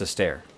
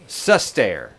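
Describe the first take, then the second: First: The first syllable is not specially emphasized. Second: The first syllable is strongly emphasized. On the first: The speaker calls it wrong. "Not just Sustair" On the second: The speaker calls it right. "I have to emphasize the first. The first syllable"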